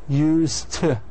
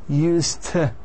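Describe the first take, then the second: The two takes are said the same way.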